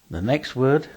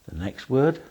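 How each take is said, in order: Both takes have the same delivery.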